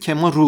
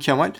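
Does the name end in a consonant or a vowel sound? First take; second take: vowel; consonant. First: The name ends with an added ru syllable. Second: The name ends with an l sound. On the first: This is how the name is adapted to Japanese. "Japoncası Kemaru oluyor" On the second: This is the original form of the name. "benim adım Kemal"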